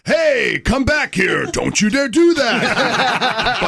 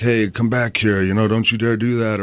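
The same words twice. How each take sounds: First: Hammed-up video game yell in the sound booth; over-the-top shout. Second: Said in the usual way. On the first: Shown as a demonstration. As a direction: yell it bigger than life for the game. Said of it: "And it's like". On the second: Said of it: "whatever I'm supposed to say".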